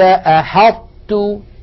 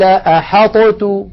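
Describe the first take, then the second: First: The emphatic t is held closed, then opens into t. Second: The emphatic t is released with an echoing bounce. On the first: The speaker calls it right. "نطبق المخرج على طاء من غير قلقلة ثم نفتح على تاء" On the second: The speaker calls it wrong. "لقلقلنا الطاء"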